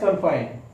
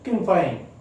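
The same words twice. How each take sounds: First: It is said in an Indian accent. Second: It is said in an American accent.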